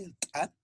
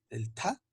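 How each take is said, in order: First: "ta" with a popped t' and a tiny catch; explosive T. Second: "ta" with a puff of air after the t; aspirated T. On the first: Teacher names T apostrophe, explosive "ta". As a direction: pop the t of "ta" hard, without breath. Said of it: "T apóstrofe". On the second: Teacher names the T H phoneme, aspirated "ta". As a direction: breathe out through the t of "ta". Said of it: "T H". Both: Shown as a demonstration.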